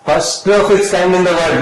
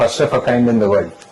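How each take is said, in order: First: It is said loudly, with more force. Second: It is said softly, without much confidence. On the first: "గట్టిగా చెప్తా sir" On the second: "గట్టిగా చెప్పలేదు, మీరు confident గా లేదు"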